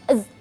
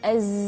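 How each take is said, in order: First: The z sound is held back and cut short. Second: The z sound flows on without being held back. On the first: The speaker calls it wrong. "jangan az" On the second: The speaker calls it right. "tapi az, az, seperti itu"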